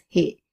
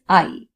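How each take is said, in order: First: The word sounds like English 'he'. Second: The word sounds like English 'eye'. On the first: The speaker calls it wrong. "many people have the tendency of pronouncing this word as he, but it is not he" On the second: The speaker calls it right. "it is I"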